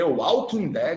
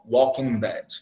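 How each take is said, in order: First: The L sound in Walking is clearly pronounced. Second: The L sound in Walking is not pronounced. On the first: The speaker calls it wrong. "meu irmão, não dá" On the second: The speaker calls it right. "É Walk"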